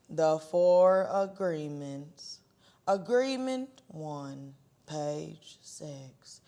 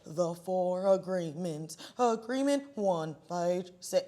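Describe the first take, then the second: First: It is read flatly at a normal speed. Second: It is read flatly at a much faster speed. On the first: "like a very monotone voice" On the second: "times four speed"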